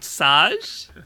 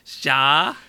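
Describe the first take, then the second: First: A vowel comes between the S and J. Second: The J comes right after the S. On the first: The speaker calls it wrong. "What am I saying wrong?" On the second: The speaker calls it right. "Right after the S and before the A"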